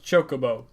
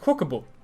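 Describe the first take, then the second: First: The word is pronounced the English way. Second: The word is pronounced the Swedish way. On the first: The speaker calls it right. "until there was voice acting in Final Fantasy, I didn't know Chocobo was pronounced Chocobo" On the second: The speaker calls it wrong. "I naturally just pronounce it the way a Swedish person would"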